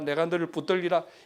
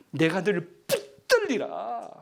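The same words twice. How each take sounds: First: It is read flatly, without feeling. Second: It is read with strong passion.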